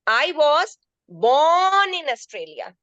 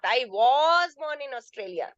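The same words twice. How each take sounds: First: The stress falls on the word born. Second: The stress falls on the word was. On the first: The person is a native, not a newcomer. "I am a native of Australia, not a newcomer" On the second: It rejects a suggestion that it was not so. "Second sentence you see I was"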